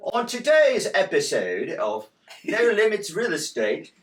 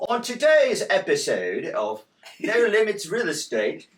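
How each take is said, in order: First: It is spoken in a put-on British accent. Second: The same.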